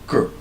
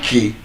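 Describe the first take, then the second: First: The syllable has a reduced schwa vowel. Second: The syllable has a full, unreduced vowel. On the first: The speaker calls it right. "there is a schwa sound in the first syllable" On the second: The speaker calls it wrong. "it's not k"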